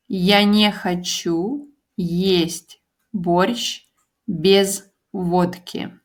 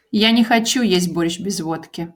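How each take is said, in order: First: "Я не хочу есть борщ без водки" said slowly, word by word; slow model sentence. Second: "Я не хочу есть борщ без водки" said fast, at natural speed. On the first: Teacher modelling the sentence slowly for learners. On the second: Teacher repeating the sentence at native speed. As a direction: rattle it off the way natives say it. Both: Shown as a demonstration. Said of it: "I don't want to eat борщ without vodka".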